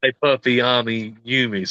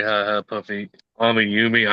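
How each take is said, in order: First: "Hey, Puffy, Ami, Yumi" stumbled out in pieces, "Hi Hi" slurred into "Hey"; tongue-tied mispronunciation. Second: "Hi Hi Puffy, Ami Yumi" said deliberately, with both "Hi" words clear; careful pronunciation. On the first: Real, not acted. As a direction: fumble "Hey, Puffy, Ami, Yumi" with a pause between each name. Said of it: "my southern accent doesn't work with the Japanese". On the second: Shown as a demonstration. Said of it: "I just wanted to say it one more time".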